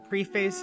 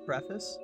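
First: Preface is pronounced in an unusual, joking way. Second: Preface is pronounced in the ordinary way. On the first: The speaker calls it wrong. "you just choose not to" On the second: The speaker calls it right. "You can say it right"

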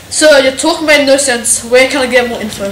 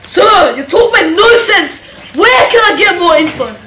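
First: It is said with a neutral tone. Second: It is said with exaggerated attitude.

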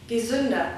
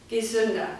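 Both takes have the same delivery.

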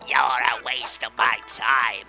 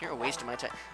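First: It is said in a put-on Lizard King voice. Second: It is said in his normal voice.

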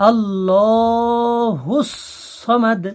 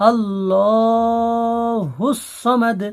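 Both takes have the same delivery.

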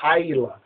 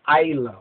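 First: The word begins with an h sound. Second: The word begins with a plain vowel sound. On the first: "while others will say Hayala" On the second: "Ayla with an A sound"

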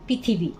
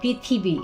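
First: The word is said quickly with 'ri' reduced to 'i'. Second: The word is said slowly with a full 'ri' sound. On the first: The speaker calls it wrong. "চট করে বলি পৃথিবী। এই রিকারটা হস্যিকার হয়ে যায়।" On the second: The speaker calls it right. "একটু সময় লাগে"

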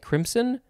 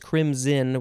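First: The middle consonant is a hissing S sound. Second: The middle consonant is a buzzing Z sound. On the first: "that sounds a little bit weird" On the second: "crimson with a Z sound"

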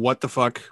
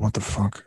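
First: The phrase is said openly and clearly. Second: The phrase is mumbled quietly under the breath. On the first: The frustration is shown openly. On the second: The frustration is shown in a subtler way.

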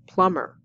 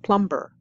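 First: The B sound is silent. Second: The B sound is pronounced. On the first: The speaker calls it right. "The B is silent" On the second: The speaker calls it wrong. "not plumber"

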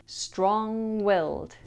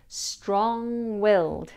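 No difference in how they are said.

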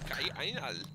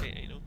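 First: It is said in a put-on German accent. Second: It is said in the speaker's normal accent.

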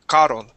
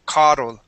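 No difference in how they are said.

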